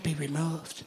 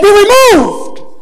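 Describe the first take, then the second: First: It is said timidly and hesitantly. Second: It is said firmly with authority.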